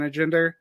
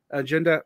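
First: Accidental Southern twang, "agenda" ending in an r sound; Southern accent. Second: Said in the usual way. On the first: Real, not acted. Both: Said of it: "my Southern accent came out".

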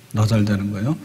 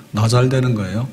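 The two takes are said the same way.

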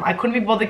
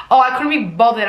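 First: Said in the usual way. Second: Higher, louder sarcastic echo; mocking repeat. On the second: Writer mocking her own line, sarcastic higher repeat. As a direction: throw the line back with mock nonchalance. Mocks the line just read.

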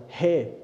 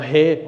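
First: Mild mock yell of "Hey!" to a stranger on the path; retold shout. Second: "Hey!" yelled much louder, a real shout. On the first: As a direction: runner calling out "Hey!" to a man, a first half-hearted shout. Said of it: "dann schrei ich den an und schrei so". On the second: Retold or imitated. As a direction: bellow "Hey!" to make him turn round. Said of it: "Schrei ich nach".

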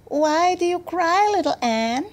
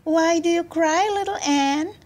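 First: High-pitched mouse voice; little mice. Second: High, chirpy little bird voice; chirping birds. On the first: Mice asking a crying girl, high little voice. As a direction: ask in a small creature's high voice. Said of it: "all the little mice came round her and asked". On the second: Birds asking a crying girl, high chirping. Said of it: "chirped they". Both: A narrator's reading.

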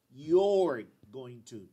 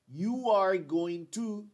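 First: Slow, "you're" run together and stressed; slow contracted form. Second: Slow, louder full form, stress on "are"; slow long form. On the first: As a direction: glide into "you're" slowly. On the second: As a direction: lean on "are", drawn out. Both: Shown as a demonstration. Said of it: "Aquí yo digo".

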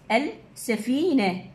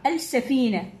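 First: Slow demo word. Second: Said in the usual way. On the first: Shown as a demonstration. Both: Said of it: "يقول ادخل اللام".

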